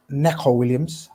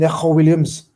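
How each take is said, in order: First: Said in the usual way. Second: Neco Williams in a Scouse accent, k as kh; attempted Scouse Neco Williams. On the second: Shown as a demonstration. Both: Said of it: "said in a proper Scouse accent there".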